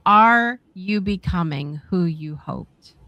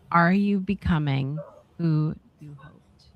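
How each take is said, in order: First: Slow, weighty read with the stress on "Are"; slow stressed question. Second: Said in the usual way. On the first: Shown as a demonstration. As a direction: lean on "Are" and let the question settle slowly.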